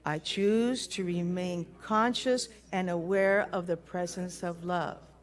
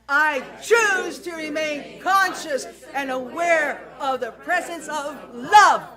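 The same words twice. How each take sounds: First: It is said in a normal, calm voice. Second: It is said loudly with full force.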